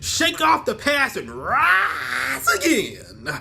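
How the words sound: It is read in a booming preacher voice.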